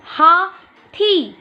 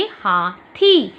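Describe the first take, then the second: First: Very slow, higher teacher model; slow spoken model. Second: Very slow recap of the word; slow spoken model. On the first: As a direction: sound out each syllable slowly. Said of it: "उसे बोल के देखेंगे". (धीरे और ऊँचे स्वर में शब्द बोलना) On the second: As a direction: draw the word out for the class. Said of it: "तो आप था में ई की मात्रा लगाएंगे". (धीरे-धीरे दोहराया गया शब्द) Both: Shown as a demonstration.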